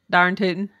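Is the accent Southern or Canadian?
Canadian. It is said in a Canadian accent.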